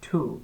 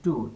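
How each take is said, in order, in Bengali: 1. T ধ্বনিটি আস্পিরেটেড, মুখ থেকে বাতাসের ফুঁ সহ। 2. T ধ্বনিটি আনঅ্যাস্পিরেটেড, মুখ থেকে বাতাসের ফুঁ ছাড়া। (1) "ঠ দিয়ে উচ্চারণ হবে" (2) "আর আপনারা পড়ছেন টু"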